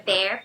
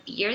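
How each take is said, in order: First: "bear" with a strong open EH; "bear" with EH before the R. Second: "bear" misread as "beer", with EE; "beer" with an iê sound, not EH; mistaken EE vowel. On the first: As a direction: keep the vowel of "bear" wide. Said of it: "pra bear a pronúncia é desse E mais forte". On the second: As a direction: show the error by closing the vowel to "beer". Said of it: "pensem que a pronúncia seria beer". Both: Shown as a demonstration.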